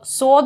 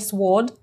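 First: The w sound is silent. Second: The w sound is pronounced. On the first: The speaker calls it right. "буква W, которая не произносится в слове sword" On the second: The speaker calls it wrong. "никакой не sword"

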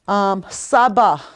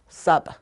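First: The word ends with a full final vowel. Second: The word ends without the final vowel. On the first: "I always say the A" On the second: "fluent speaker would only say sab"

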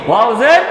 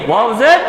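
Both takes have the same delivery.

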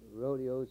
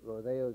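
First: Rodeos is said the common non-Californian way. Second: Rodeos is said the way Californians say it.

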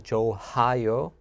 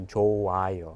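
First: The h sound in the middle is pronounced. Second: The h sound in the middle is silent. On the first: The speaker calls it wrong. "So I would not say 좋아요" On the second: The speaker calls it right. "I would not really pronounce the H sound. I would just say 좋아요"

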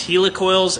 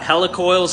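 First: The first part sounds like 'helix'. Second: The first part sounds like 'helicopter'. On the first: "I call these helicoils" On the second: "like a helicopter"

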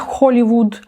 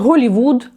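First: The word begins with a rough kh sound. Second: The word begins with a voiced h sound. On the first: The speaker calls it wrong. "а не Холівуд" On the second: The speaker calls it right. "не відмовляються казати Голівуд"

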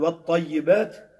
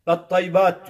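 First: The middle syllable is kept in full. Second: The middle syllable is dropped. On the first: The speaker calls it right. "Ettahiyyatü okuyacak" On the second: The speaker calls it wrong. "vettaybat diyor"

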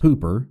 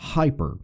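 First: The word does not sound like English 'hyper'. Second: The word sounds like English 'hyper'. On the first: "That's how I learned how to pronounce it" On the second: "And hearing it as hyper, you recognize that we have brought in this preposition to our own language"

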